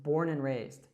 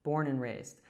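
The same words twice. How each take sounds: First: 'And' links to 'born' and its 'd' drops. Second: The same.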